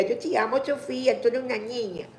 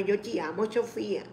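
First: Affectionate. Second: Tender, softer. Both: Real, not acted. Greeting a child viewer.

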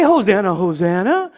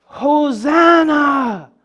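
First: Mock tame congregation, dipping low; subdued churchy hosanna. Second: Long, drawn-out cry of the crowd; mild crowd yell. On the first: Shown as a demonstration. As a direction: say it tamely, as in a sedate church service. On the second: Acted. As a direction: stretch it out like a calling crowd. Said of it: "They're yelling".

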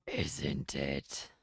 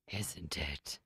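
First: Much lower voiced take; low growl punchline. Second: Whispered punchline. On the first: Retelling the dinosaur joke, deep dinosaur voice. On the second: Acted. Retelling the dinosaur joke, whispered punchline. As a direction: whisper it, low. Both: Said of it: "dinosaur punchline retry".

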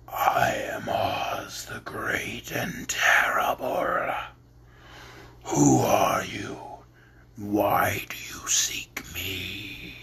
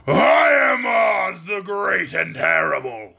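First: Whispered, much lower, very slow; slow, low, whispered ball of fire; low quiet voice. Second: Monstrous roar, slow and heavy; roaring beast. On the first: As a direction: speak from the fire in a low hush. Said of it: "low, quiet voice". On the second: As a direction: boom it out like a monster on a throne. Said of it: "in a voice that was one great roar". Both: Acted.

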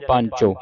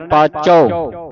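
First: ਪੰਚੋ with a nasal ਨ before ਚ, shown as the mistake; wrong nasal pancho. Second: ਪਾਚੋ slow, long ਪਾ and no nasal before ਚ; no nasal paacho. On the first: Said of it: "ਪੰਚੋ ਤਾਂ ਉਚਾਰਨ ਹੋਵੇਗਾ". (ਗਲਤ ਉਚਾਰਨ ਪੰਚੋ, ਬਿੰਦੀ ਨਾਲ) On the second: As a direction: stretch ਪਾਚੋ with no ਨ sound. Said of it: "ਬਿੰਦੀ ਤੋਂ ਰਹਿਤ ਉਚਾਰਨ ਕਰਨਾ ਹੈ". (ਪਾਚੋ ਬਿੰਦੀ ਤੋਂ ਬਿਨਾਂ, ਹੌਲੀ) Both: Shown as a demonstration.

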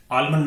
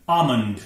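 First: आलमंड with a clear l; wrong pronunciation. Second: आमंड as AA-mund, falling; silent l. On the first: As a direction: sound the l in आलमंड, AAL-mund. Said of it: "आलमंड नहीं". (गलत उच्चारण, ल के साथ आलमंड) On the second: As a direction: say आमंड without the l. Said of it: "एल silent होगा". (सही उच्चारण, बिना ल का आमंड) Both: Shown as a demonstration.

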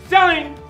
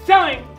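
No difference in how they are said.

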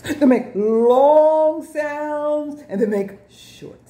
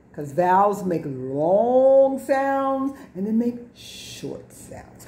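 First: They make long sounds, slower, higher and louder; emphatic slow repeat. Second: Said in the usual way. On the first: Shown as a demonstration. Teacher to class, slow emphatic repeat. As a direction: spell it out slowly to the class. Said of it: "teacher repeats with emphasis".

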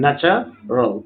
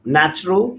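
First: "ন্যাচারাল" split in two, with a gap before the final "রাল"; syllable by syllable. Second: Said in the usual way. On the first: Shown as a demonstration. Teacher showing the two sound units, syllable by syllable. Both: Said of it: "মানে দুইটা উচ্চারণ".

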